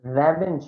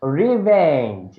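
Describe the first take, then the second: First: রেভেঞ্জ said with an open "re-"; the student's রেভেঞ্জ, "re" as in red; wrong pronunciation. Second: রিভেঞ্জ with "ri", slow and louder; correct pronunciation. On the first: Teacher shows the wrong রেভেঞ্জ with an open "re". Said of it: "রেভেঞ্জ না". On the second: Teacher drills the class on রিভেঞ্জ, slow and emphatic. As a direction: stretch out রিভেঞ্জ, "ri" as in river. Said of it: "এটাকে রিভেঞ্জ বলে". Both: Shown as a demonstration.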